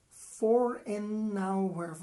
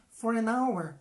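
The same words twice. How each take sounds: First: "For an hour" slow, words run together into one; linked slowly. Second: Said in the usual way. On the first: Shown as a demonstration. ("For an hour" devagar, tudo junto) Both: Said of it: "Junta, né?".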